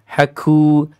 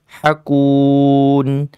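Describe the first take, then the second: First: The k is released with a strong, exaggerated breath. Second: The k is released with a light, moderate breath. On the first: The speaker calls it wrong. "wah, berlebihan" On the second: The speaker calls it right. "biasa saja begitu ya"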